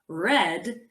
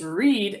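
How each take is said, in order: First: The vowel is a short E, like red. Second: The vowel is a long E, like reed.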